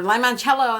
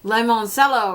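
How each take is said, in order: First: "limoncello" said lye-mon-CHEL-oh; Italian ch in limoncello. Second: "limoncello" said lye-mon-SELL-oh, with an s sound; soft c in limoncello. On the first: Vlogger giving the version she kept thinking, "limoncello" with ch. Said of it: "that's what I kept thinking". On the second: Vlogger weighing up pronunciations, "limoncello" with an s sound. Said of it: "I thought it was pronounced". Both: Shown as a demonstration.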